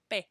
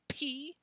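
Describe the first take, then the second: First: The p is released softly without a pop. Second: The p is released with a strong pop. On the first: "a lot softer ... without that kind of a pop sound" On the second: "In English we say P, and we really make a P sound"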